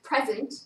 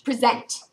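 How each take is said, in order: First: The stress is on the first syllable. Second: The stress is on the second syllable.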